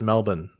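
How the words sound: It is said with an Australian pronunciation. The speaker calls it right. "but it's just Melbourne"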